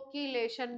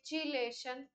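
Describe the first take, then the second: First: The word begins with a 'k' sound. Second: The word begins with a 'ch' sound. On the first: "इसी को कीलेशन भी पढ़ते हैं" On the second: "इसको बोलते हैं चीलेशन"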